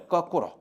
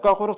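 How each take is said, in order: First: The word is said in a plain, ordinary way. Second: The word is said with strong, forceful articulation.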